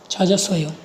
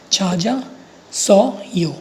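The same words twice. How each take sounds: First: Said in the usual way. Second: छा जा, pause, सो यो, each syllable separate. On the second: Shown as a demonstration. Teacher building the word for learners, syllable-by-syllable छा जा सो यो. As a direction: spell out छा जा सो यो in slow separate syllables. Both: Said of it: "चा बन जाएगा और जा बन जाएगा".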